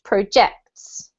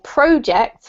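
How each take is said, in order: First: The stress is on the second syllable. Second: The stress is on the first syllable. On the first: It is used as a verb. "this is the verb to project. So it should be pronounced projects" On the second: It is used as a noun. "with the emphasis on the first syllable if it's a noun"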